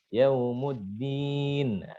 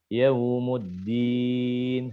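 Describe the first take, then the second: First: The vowels are clear, not through the nose. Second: The vowels are pushed through the nose. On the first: The speaker calls it right. "harusnya yaumuddin dibaca yaumuddin" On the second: The speaker calls it wrong. "banyak yang masuk ke hidung"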